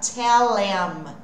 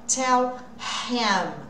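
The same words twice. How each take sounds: First: The h is dropped and the words run together. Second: The h in him is clearly pronounced. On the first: "quando eu junto e tiro esse som fora" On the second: "fazer esse som do H, que é esse, né?"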